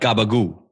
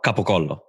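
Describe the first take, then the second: First: It uses g and b sounds, ending in oo. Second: It uses k and p sounds, ending in o. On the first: The speaker calls it wrong. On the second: The speaker calls it right.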